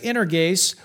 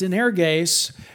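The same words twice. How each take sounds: First: The word is said quickly. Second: The word is said slowly and carefully.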